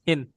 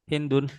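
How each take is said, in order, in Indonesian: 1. Namanya berakhir tanpa -un. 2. Namanya berakhir dengan -un penuh. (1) "kalau dibacanya wakaf" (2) "kalau dibacanya nggak wakaf dibacanya Hindun"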